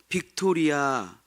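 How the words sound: It is said flat, in Korean style. The speaker calls it wrong. "우리가 습이 있어요. 빅토리아 하던 습이 있어요"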